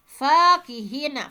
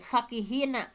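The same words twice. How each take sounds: First: The vowel after the f is long. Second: The vowel after the f is short. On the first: "fa-nya panjang ya" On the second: "bukan uh"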